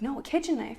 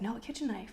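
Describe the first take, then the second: First: Higher, more emphatic retold correction; retold insistence. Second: Mild, higher-pitched correction; retold correction. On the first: Husband repeats his knife request to wife, insistent retold correction. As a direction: quote him insisting, pressing on kitchen. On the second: Husband corrects wife on the knife, mild retold correction. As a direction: quote him correcting, fairly softly. Husband repeats his request.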